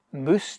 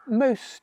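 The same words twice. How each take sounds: First: "moose" for mouse, with a long oo; Scots pronunciation. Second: "mouse" with an ow diphthong; English ow in "mouse"; English pronunciation. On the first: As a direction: say "moose" the Scots way, rhyming with goose. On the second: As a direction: say "mouse" the English way, with the vowel of now. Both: Shown as a demonstration. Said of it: "you mauna say moose".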